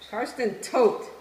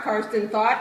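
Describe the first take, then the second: First: The surname has the vowel of 'boat'. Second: The surname has the vowel of 'thought'. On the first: The speaker calls it right. "That's really how you say it. It's German" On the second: The speaker calls it wrong. "it's not Karsten Thought"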